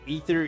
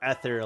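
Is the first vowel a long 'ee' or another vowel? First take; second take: long ee; other vowel. First: The first vowel is a long 'ee' sound. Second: The first vowel is not a long 'ee'. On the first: "E E T H E R" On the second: "like E T H E R"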